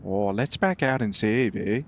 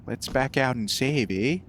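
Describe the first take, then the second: First: Put-on a second try at a Canadian accent, lower; a retry at a Canadian, low and relaxed. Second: Mock Canadian accent, light; a playful Canadian "eh". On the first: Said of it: "It went a bit, like, weird there". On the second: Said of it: "I can't do a Canadian accent".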